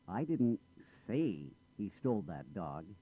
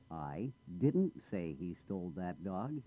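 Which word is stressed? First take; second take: say; didn't. First: The stress falls on the word say. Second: The stress falls on the word didn't. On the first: It was implied rather than said. "I didn't say it. I might have implied it" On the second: Something was said, but not that. "I did say something, but not that"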